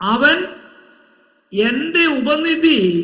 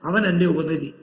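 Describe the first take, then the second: First: The phrase is read slowly and carefully. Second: The phrase is read quickly as one unit. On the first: The Lord keeps the deposit. The speaker calls it right. "അങ്ങനല്ല" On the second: The Lord is the deposit. The speaker calls it wrong. "പെട്ടെന്ന് വായിക്കും ചിലര്"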